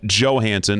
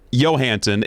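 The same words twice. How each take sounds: First: The name begins with a hard J sound. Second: The name begins with a soft Y sound. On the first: The speaker calls it right. "Hard J" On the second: The speaker calls it wrong. "It's not Johansson"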